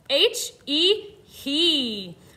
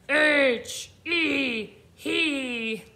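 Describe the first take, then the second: First: It is spelled in a normal voice. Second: It is spelled in a scary monster voice. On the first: "Let's spell it" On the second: "Let's spell it like a scary monster"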